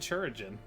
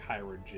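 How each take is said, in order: First: The name begins with a 'ch' sound. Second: The name begins with a 'k' sound. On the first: The speaker calls it wrong. "I thought it was fucking Churigen" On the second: The speaker calls it right. "apparently like chiropractor, but Kyrogen"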